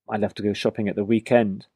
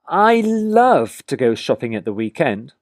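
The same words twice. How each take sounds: First: It is said in a plain, neutral way. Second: It is said in an enthusiastic way.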